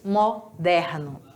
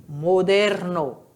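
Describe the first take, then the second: First: Moderno with open E, Brazilian style; Portuguese pronunciation. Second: Moderno with closed O and E, Spanish style; Spanish pronunciation. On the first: Teacher contrasts Portuguese for the class, Brazilian pronunciation. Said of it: "E em português, moderno". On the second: Teacher models Spanish for students, careful Spanish pronunciation. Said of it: "o O tem som de O, o E tem som de E". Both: Shown as a demonstration.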